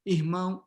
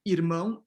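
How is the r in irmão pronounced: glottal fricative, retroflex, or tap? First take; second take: glottal fricative; tap. First: The r is a breathy throat sound. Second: The r is a quick tongue tap. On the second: "the tap"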